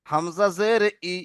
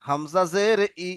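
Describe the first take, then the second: First: Slow spelling drill. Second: Slow, drawn-out syllable spelling for the class; slow repeat-after-me drill. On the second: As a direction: spell Hamza জের ই slowly, syllable by syllable. (ধীরে ধীরে বানান করে পড়া) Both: Shown as a demonstration. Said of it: "বলেন আমার সাথে সাথে".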